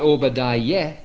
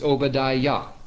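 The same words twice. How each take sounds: First: The last syllable sounds like 'yeh'. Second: The last syllable sounds like 'yah'. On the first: The speaker calls it wrong. "It's not Obadiah" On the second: The speaker calls it right. "it's Obadiah"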